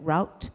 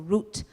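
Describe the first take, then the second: First: The word rhymes with out, in non-British style. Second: The word rhymes with boot, in British style.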